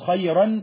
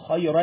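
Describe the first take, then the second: First: The final n sound is clearly pronounced. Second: The final n merges into the next sound without nasality. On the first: The speaker calls it wrong. "انا مش هقول خيرا" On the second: The speaker calls it right. "هقول خيرا، لا، فهدخل على طول التنوين جوه اللام"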